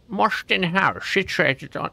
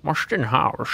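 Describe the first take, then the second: First: Put-on a first stab at a Welsh accent that drifts Scottish; a Welsh accent slipping into Scottish; attempted Welsh accent. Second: Put-on Marston House in a Sean Connery Scottish accent, rolled and slurred; Scottish accent in the Sean Connery mould. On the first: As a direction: try a lilting Welsh accent on the place name. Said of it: "like, Scottish, right?". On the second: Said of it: "Sean Connery".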